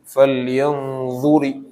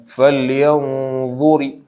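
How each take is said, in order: The two takes are said the same way.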